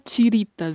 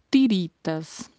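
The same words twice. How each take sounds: First: The t is softened into a ch-like sound. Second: The t is a plain hard t sound. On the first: The speaker calls it wrong. "Não se fala tiritas" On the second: The speaker calls it right. "e sim tiritas"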